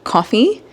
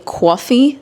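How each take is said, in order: First: It is said in a general American accent. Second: It is said in a New York accent. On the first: "instead of coffee" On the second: "they say coffee there"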